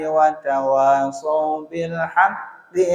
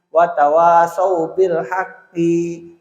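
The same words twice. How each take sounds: First: The short final vowel is kept short. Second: The short final vowel is drawn out long. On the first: The speaker calls it right. "Jadi hakinya tidak manjang" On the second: The speaker calls it wrong. "kadang-kadang yang pendek dipanjangkan"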